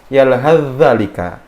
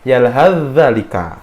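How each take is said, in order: First: The 'th' sound is merged into the 'dh'. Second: The same.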